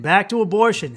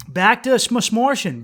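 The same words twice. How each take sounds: First: Said in the usual way. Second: Mock flub smortion; playful slip. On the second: Shown as a demonstration.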